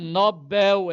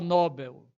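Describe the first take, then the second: First: The stress is on the last syllable. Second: The stress is on the first syllable. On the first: The speaker calls it right. "é oxítona" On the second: The speaker calls it wrong. "Aluno meu não vai pronunciar Nobel"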